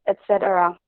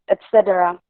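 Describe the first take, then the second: Both takes have the same delivery.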